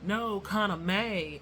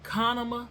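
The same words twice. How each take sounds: First: "Kona May" slow, two clear words, stress on "Kona"; correcting the name. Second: "Konama" run together as one word, questioning rise; mangled name. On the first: Shown as a demonstration. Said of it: "for those of you that". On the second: Retold or imitated. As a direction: say "Konama" as a stranger getting the name wrong. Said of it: "And he was like".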